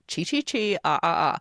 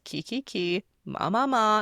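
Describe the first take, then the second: First: The syllables start with a ch sound. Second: The syllables start with a k sound. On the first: The speaker calls it wrong. "Not Chi Chi Chi, ah ah ah" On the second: The speaker calls it right. "it's Kiki Ki, Ma Ma Ma, and you can say it like that"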